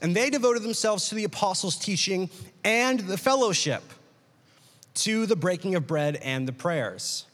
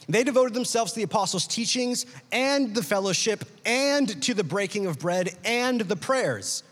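First: There is a clear break after fellowship. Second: It flows on as an even list after fellowship.

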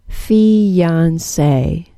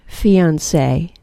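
First: The word is said slowly and drawn out. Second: The word is said at a normal speed.

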